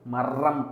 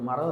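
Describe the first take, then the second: First: The r sound is pressed hard and stressed. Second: The r sound is light and soft. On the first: The speaker calls it wrong. "மரம் அப்படின்னு நீ அழுத்திலாம் சொல்ல மாட்டேன்" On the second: The speaker calls it right. "ஒரு மரம் இருக்குது அப்படின்னு தான் சொல்லுவேன்"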